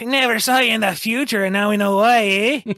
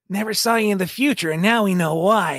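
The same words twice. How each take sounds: First: It is said in a Scottish accent. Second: It is said without a Scottish accent. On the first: The speaker calls it right. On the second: The speaker calls it wrong.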